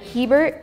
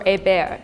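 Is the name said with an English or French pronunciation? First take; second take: English; French. First: The name is said with English pronunciation. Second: The name is said with French pronunciation.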